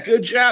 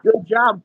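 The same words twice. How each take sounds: First: It is said with a mocking, sarcastic tone. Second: It is said warmly and sincerely. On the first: The person actually did badly. "Or was it like, oh yeah, good job. You really screwed the pooch on this one" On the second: The praise is genuinely meant. "hey, good job, proud of you?"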